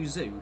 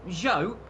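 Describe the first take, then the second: First: The surname's vowel sounds like 'joo'. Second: The surname's vowel sounds like 'joe'. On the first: The speaker calls it wrong. "as a lot of people unfortunately call him" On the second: The speaker calls it right. "it is Zhou"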